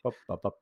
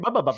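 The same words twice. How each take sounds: First: The syllables are spoken slowly. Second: The syllables are spoken quickly. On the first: This is how the other person normally talks. "And you're like" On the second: This is how the speaker normally talks. "I speak a lot quicker than Mario"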